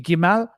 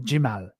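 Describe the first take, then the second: First: The word begins with a hard g sound. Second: The word begins with a j sound.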